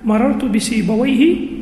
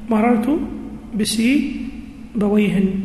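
First: The name ends without an added n sound. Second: The name ends with an added n sound. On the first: The one well-known scholar is meant. "وما لم ينون فهو معرفة" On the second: Any person called by this name is meant. "فما نون فهو نكرة"

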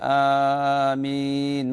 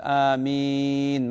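First: Both the first and second vowels are drawn out. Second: Only the second vowel is drawn out long. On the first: "يمد في الأولى وفي الثانية" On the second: "تمد في الثانية"

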